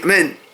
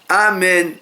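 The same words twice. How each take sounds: First: The opening vowel is swallowed and unclear. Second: The opening vowel is clearly and fully pronounced. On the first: The speaker calls it wrong. "Il y a des gens qui disent amen. Il ne faut pas dire comme ça" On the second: The speaker calls it right. "bien prononcer le A"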